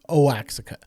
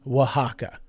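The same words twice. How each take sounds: First: The name is said with an anglicized pronunciation. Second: The name is said with a Spanish pronunciation. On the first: The speaker calls it wrong. "I was pronouncing this place in Mexico as Oaxaca" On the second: The speaker calls it right. "It is Oaxaca"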